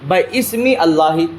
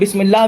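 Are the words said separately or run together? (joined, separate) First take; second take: separate; joined. First: The two words are said as separate words. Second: The two words are run together into one word. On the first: "किस तरीके से पढ़ा जाता है इसको" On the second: "या फिर बिस्मिल्लाह भी पढ़ा जाता है इसको"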